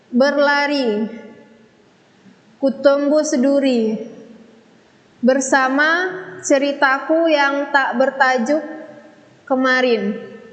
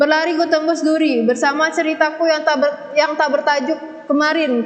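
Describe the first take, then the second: First: The lines are read very slowly and drawn out. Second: The lines are read quickly and hurriedly. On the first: "kalau terlalu lambat seperti ini contohnya" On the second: "jika kita membacakan puisi jika kita terburu-buru"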